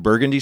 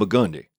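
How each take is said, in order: First: The street name is said the standard way. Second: The street name is said the local way. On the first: An outsider is saying the name. "I'm staying on Burgundy Street" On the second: A local is saying the name. "And she goes, you on Burgundy?"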